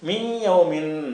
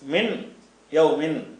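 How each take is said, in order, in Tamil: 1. சொற்கள் இடைவெளி இல்லாமல் சேர்த்து வாசிக்கப்படுகின்றன. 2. சொற்கள் இடைவெளி விட்டு வாசிக்கப்படுகின்றன. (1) "ரெண்டையும் இணைச்சி வாசிக்க" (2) "இடைவெளி விட்டு சேர்க்காம வாசித்தோம் என்று சொன்னால்"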